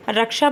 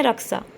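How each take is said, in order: First: Said in the usual way. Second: "रक्षा" ending in -ksa, not -ksha; regional pronunciation. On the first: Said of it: "रक्षा को बोलते हैं". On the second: Shown as a demonstration. Teacher quoting regional speakers, "रक्षा" said as raksa. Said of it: "बोलते हैं".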